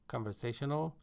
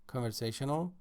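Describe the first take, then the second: No difference in how they are said.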